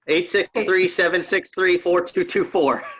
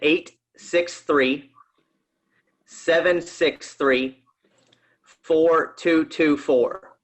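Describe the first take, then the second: First: The number is said fast. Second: The number is said slowly.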